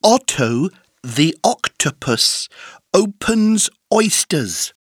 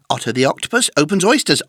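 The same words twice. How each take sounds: First: The sentence is said slowly with pauses. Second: The sentence is said very fast without pauses.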